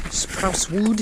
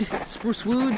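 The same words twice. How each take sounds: First: Playful higher. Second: Squeaky high repeat; high silly voice. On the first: Repeating the word playfully. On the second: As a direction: sing it up high like a cartoon. Repeating it even higher. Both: Acted.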